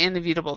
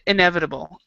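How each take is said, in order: First: The word is pronounced in a garbled, slipped form. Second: The word is pronounced in its usual standard form. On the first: The speaker calls it wrong. "but I say inevitable. That's a mistake" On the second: The speaker calls it right. "That's it"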